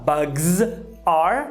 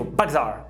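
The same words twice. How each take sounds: First: The two words are said separately. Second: The two words run together in one linked unit. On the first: The speaker calls it wrong. "ao invés de você falar bugs are" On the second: The speaker calls it right. "que você vai ouvir do nativo?"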